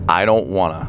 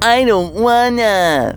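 First: It is said in a plain voice. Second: It is said in a whiny, complaining voice.

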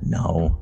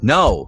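First: The word is said quietly with a sense of shame. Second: The word is said with irritation and impatience. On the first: The speaker feels embarrassed about the answer. "just very ashamed" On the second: The speaker is fed up with being asked. "stop asking me. I'm tired of it"

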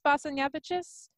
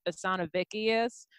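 First: The name is said closer to Lithuanian. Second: The name is said in a Southern US accent. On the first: This is the closest attempt at the original pronunciation. The speaker calls it right. "I think it's pronounced Basanavicius. That's as close as I think I'm going to get" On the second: This is how a relative from the US South says the name. The speaker calls it wrong. "He pronounced it Basanavicius, which is the most redneck incorrect"

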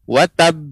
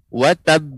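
The two takes are said the same way.

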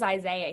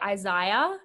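First: Isaiah is said the American way. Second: Isaiah is said the Australian way.

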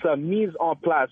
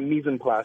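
First: The three words are kept distinct from each other. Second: The three words are run together as one word. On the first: The speaker calls it right. "it's three separate words" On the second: The speaker calls it wrong. "not mise en place"

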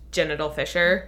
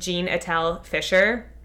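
First: The name is said fast with words run together. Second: The name is said slowly with separate words.

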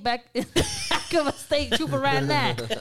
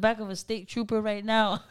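First: It is said in an imitated, put-on voice. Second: It is read in a plain, neutral voice.

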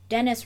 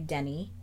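First: The name is pronounced the English way. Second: The name is pronounced the French way.

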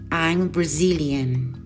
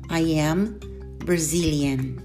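First: The verb is reduced and joined to the pronoun. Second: The verb is said in full as two words. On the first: "seguida da forma contracta ou forma reduzida" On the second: "sempre a forma completa"

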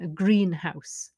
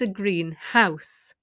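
First: The stress falls on the word 'green'. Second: The stress falls on the word 'house'. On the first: It is a glass building for growing plants. "the stress is on the first syllable because the whole thing is a noun" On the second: It is a house that is coloured green. "the important thing is the house, and the description is green. It's not important. So you stress the house"

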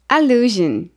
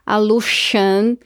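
First: The consonant before the ending is a voiced zh. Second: The consonant before the ending is a voiceless sh. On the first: The speaker calls it right. "mas que dessa vez o som é JN" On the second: The speaker calls it wrong. "a gente não falaria allusion"

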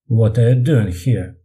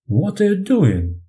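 First: It sounds mocking and sarcastic. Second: It sounds strongly surprised.

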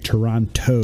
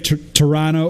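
First: It is said in a non-Canadian way. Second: It is said in a Canadian way. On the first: The speaker is not from Canada. "that's how you can tell I'm not Canadian. I say Toronto" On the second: This is how locals say it. "I don't say Toronto"

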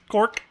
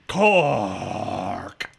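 First: The word is said plainly, without drama. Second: The word is said in a dramatic, scary way. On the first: It sounds like an ordinary word. The speaker calls it wrong. "You can't just say" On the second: It sounds like a horror movie title. The speaker calls it right. "it has to be"

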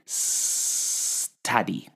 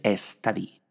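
First: The word begins directly with the S. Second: An E vowel is added before the S. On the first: The speaker calls it right. "hay que decir study" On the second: The speaker calls it wrong. "No hay que decir study"

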